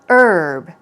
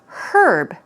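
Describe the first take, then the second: First: The word starts with a vowel, no H. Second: The word starts with an audible H sound. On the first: "You can either pronounce it without the H sound" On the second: "They say it with the H sound"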